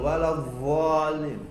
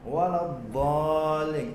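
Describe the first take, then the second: First: The doubled consonant is an emphatic z-like sound. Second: The doubled consonant is an emphatic d sound. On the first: The speaker calls it wrong. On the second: The speaker calls it right.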